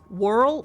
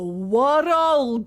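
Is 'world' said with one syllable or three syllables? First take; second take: one syllable; three syllables. First: Non-Scottish accent, said as one short syllable. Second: Scottish accent, stretched over three syllables. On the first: The speaker calls it wrong. "think that world, world, world, world is one fucking syllable? Wrong!" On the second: The speaker calls it right. "That's how you pronounce world in Scotland in a Scottish accent. Three syllables"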